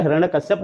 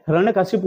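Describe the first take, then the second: First: हिरण्यकश्यप ending "kash-yap"; wrong form. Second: हिरण्यकशिपु ending "ka-shi-pu"; three light syllables closing हिरण्यकशिपु, "ka-shi-pu"; correct form. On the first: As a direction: say हिरण्यकश्यप closing on "kashyap". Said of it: "नहीं होता है". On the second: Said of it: "हमने बताया बहुत जोर देके". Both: Shown as a demonstration.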